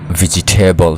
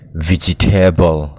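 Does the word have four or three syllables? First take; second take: three; four. First: The word is said with three syllables. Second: The word is said with four syllables. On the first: The speaker calls it right. "three syllable so tur ani" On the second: The speaker calls it wrong. "vegetable ani lo ani"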